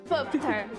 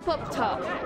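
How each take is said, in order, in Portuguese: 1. O nome é dito sem sotaque britânico. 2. O nome é dito com sotaque britânico.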